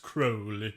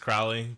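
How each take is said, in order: First: The first syllable rhymes with 'crow'. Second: The first syllable rhymes with 'cow'. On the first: This is the way the man himself insisted on. "he's like, no, it's Crowley" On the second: This is the ordinary English way of saying the name. "the English name is Crowley"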